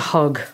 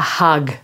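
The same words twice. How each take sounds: First: It is said in an Irish accent. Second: It is said in an Australian accent.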